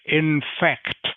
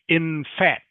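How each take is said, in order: First: The k sound before the final t is pronounced. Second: The k sound before the final t is dropped. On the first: The speaker calls it right. "you have to say both the final consonant ... and the second to last consonant" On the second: The speaker calls it wrong. "if you don't say the k sound, it sounds like in fat"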